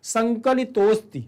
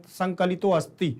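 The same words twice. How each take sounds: First: संकलितोस्ति said slowly as one word, the अ swallowed; merged correct reading. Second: संकलितो अस्ति said as two words with a full अ; wrong pronunciation with an audible अ in संकलितो अस्ति; separated wrong reading. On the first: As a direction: correct demo of संकलितोस्ति with no अ heard. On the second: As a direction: sound the अ of अस्ति clearly, the wrong way. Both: Shown as a demonstration. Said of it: "संकलितो अस्ति नहीं होगा".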